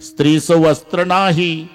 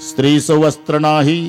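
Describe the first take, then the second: No difference in how they are said.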